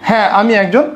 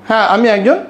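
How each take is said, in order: No difference in how they are said.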